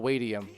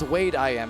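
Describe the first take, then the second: First: The name is run together into one word. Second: The name is said as three separate parts. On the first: The speaker calls it wrong. "not Wadium" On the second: The speaker calls it right. "it's Wade I am is his name"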